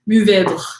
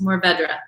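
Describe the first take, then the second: First: The final 'dre' sound is swallowed. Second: The final 'dre' sound is pronounced plainly. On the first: "you like swallow the D R U H" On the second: "or just"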